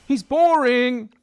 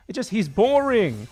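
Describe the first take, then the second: First: Very slow and louder, dragging out boring; mock bored drawl. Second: Said in the usual way. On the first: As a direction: stretch it out to mock the complaint. Repeats the critic's complaint twice.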